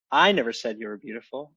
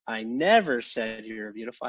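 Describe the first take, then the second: First: "I" said with a clear rise and lift, rest plain; stress on I. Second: "never" stretched and pushed hard, rest softer; stress on never. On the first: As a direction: punch the first word I. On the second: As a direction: hit the word never. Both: Shown as a demonstration. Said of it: "just put the emphasis on a different word each time".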